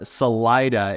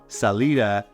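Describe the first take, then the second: First: It uses the local Colorado pronunciation. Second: It uses the California pronunciation. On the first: This is how locals in Colorado say it. "when I first heard Salida" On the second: This is how it is said in California. "which is what I'm used to coming from California"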